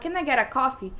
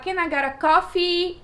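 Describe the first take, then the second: First: The final vowel of coffee is short. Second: The final vowel of coffee is stretched long. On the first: The listener does not understand the request. The speaker calls it wrong. "A pessoa não entendia" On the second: The listener understands the request. The speaker calls it right. "estender o i"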